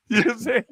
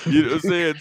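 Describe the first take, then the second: First: Chuckling through the repeat; laughing. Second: Said in the usual way. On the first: Real, not acted. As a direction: laugh as you ask it.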